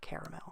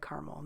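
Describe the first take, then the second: First: It is pronounced a non-Midwestern way. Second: It is pronounced the Midwestern way. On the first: "not caramel" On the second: "I'm from the Midwest, so I say caramel"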